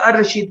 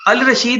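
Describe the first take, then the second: First: The 'l' is silent and the 'r' is doubled. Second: The 'l' is clearly pronounced before 'r'. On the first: The speaker calls it right. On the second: The speaker calls it wrong.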